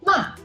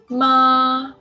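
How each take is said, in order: First: The pitch falls sharply from high. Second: The pitch stays high and level. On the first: "The fourth tongue is a falling tongue" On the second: "Ma is a flat tongue"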